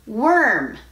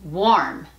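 First: "Worm" as wurm, higher, with er vowel; "Worm" with a tight er, no o sound. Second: "Warm" with a rounded aw vowel, wawrm; "Warm" as wawrm, open and rounded. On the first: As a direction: curl straight into r in "Worm". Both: Shown as a demonstration. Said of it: "la diferencia es sutil, pero escuchen".

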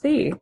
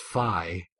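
First: Phi said like "fee"; British guess pronunciation. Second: Phi said like "fye"; American letter pronunciation. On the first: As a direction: say phi to rhyme with "see". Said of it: "if there it's pronounced phi". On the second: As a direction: say phi to rhyme with "eye". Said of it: "it's pronounced phi". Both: Shown as a demonstration.

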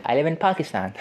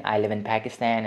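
First: "Pakistan" with broad open a vowels, Pahk-i-stahn; native pronunciation. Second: "Pakistan" in an English accent with flat a vowels, PAK-i-stan. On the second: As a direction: say "I live in Pakistan" the anglicised English way. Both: Shown as a demonstration. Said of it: "I said this in English accent".

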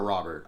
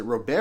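First: Robert as "ROB-ert", t sounded; Robert stressed on the first syllable; English pronunciation. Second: Robert as "roh-BAIR", silent t; Robert ending like "bear"; French-style pronunciation. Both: Shown as a demonstration. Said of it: "is it Robert or Robert".

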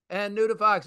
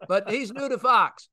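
First: New hit, Fox dropped; stress on new. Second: Fox leaned on, falling; stress on Fox. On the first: Host repeating the joke, now stressing new. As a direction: lean on the word new, not Fox. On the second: Host teasing a new Fox guest, stress on Fox. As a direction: push the word Fox. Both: Shown as a demonstration.

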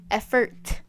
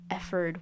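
First: "effort" louder, ending in a crisp released t; "effort" with a sharply sounded t at the end; crisp final T. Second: "effort" ending in a soft d, like "efferd"; "effort" said loosely as "efferd"; soft final consonant. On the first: Shown as a demonstration. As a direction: correct yourself, hitting the final t of "effort". Corrects the word just questioned. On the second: Real, not acted. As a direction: let the t in "effort" slacken to a d. Trips over the word, then corrects it.

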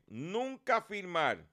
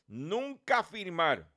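First: "nunca firmar" said very slowly, each word weighted; slow stressed repeat. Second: Said in the usual way. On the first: Shown as a demonstration.

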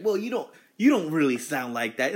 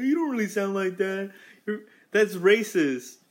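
First: Higher, louder imitation of a complainer; mock objection. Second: Mock stupid complainer. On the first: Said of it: "they're gonna be like". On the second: Imitating someone outraged at the accent, stupid complainer voice. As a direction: whine it like an outraged idiot. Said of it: "some stupid ass is gonna be like".

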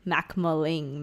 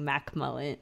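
First: Macmulling said slowly, stressing the Mac; character name. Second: Macmullen said quietly, low and falling; real name. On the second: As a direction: Macmullen like the surname. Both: Shown as a demonstration. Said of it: "So, like, Muck".

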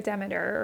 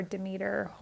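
First: Demeter said DEM-uh-ter; first-syllable stress. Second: Demeter said duh-MEE-ter; second-syllable stress. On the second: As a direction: stress the middle of Demeter, long ee. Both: Shown as a demonstration. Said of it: "however we wanna say that".

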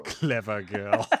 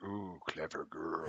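First: Movie quote voice. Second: Hunter voice. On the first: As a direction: savour the words like a stalking hunter. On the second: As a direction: savour it like a stalking hunter. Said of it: "and he's like". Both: Retold or imitated.

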